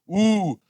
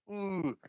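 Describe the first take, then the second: First: It is shouted loudly with lots of energy. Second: It is said weakly with little energy. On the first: The speaker calls it right. "é um com vontade" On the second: The speaker calls it wrong. "mas não é aquele"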